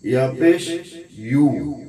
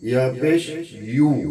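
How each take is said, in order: The two takes are said the same way.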